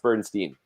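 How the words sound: It is said the American way.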